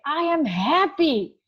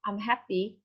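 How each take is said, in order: First: "happy" drawn out, louder and higher; slow, emphatic "happy" with strong feeling; stress on HAPPY. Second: Said in the usual way. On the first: Shown as a demonstration. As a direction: punch the word "happy" hard and stretch it. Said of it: "then I emphasize on the word happy". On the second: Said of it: "If I would say, for example".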